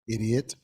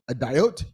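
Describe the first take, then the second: First: The word is said as 'idiot'. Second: The word is said as 'a-diot'. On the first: This is the usual spoken form. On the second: This is how it was read from a book before ever hearing it.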